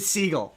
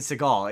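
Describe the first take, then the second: First: The surname is said like the bird seagull. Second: The surname is said like the name Seagal. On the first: The speaker calls it right. "It's Jason Segel, as in the animal Segel" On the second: The speaker calls it wrong. "not Seagal like Steven Seagal"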